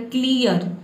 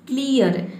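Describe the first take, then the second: No difference in how they are said.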